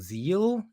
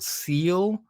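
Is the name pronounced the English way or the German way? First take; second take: German; English. First: The name is pronounced the German way. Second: The name is pronounced the English way. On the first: "I've also heard it pronounced Zeal in, in like a German pronunciation" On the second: "it could be called SEAL"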